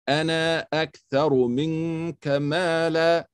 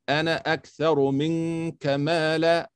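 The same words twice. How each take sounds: First: The last vowel of the first word is long. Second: The last vowel of the first word is short. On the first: The speaker calls it right. "I'll read it slow for you the right way" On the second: The speaker calls it wrong. "then I'll read it slow for you the wrong way"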